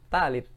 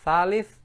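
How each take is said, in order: First: The word begins with a t sound. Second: The word begins with a th sound. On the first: This is the everyday Egyptian form. "jadi tha dibaca ta" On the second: This is the standard Arabic form. "jadi tha dibaca ta"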